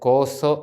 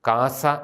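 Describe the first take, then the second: First: It is said with o vowels. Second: It is said with a vowels. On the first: It is the West Syriac pronunciation. "നമ്മുടെ സുറിയാനിയിൽ ശരിയായിട്ടത് കോസോ എന്നാണ്" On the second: It is the East Syriac pronunciation. "പൗരസ്ത്യ സുറിയാനി ഉച്ചാരണത്തിലാണ് നമ്മളത് പരിചയിച്ച് പറയുന്നത്"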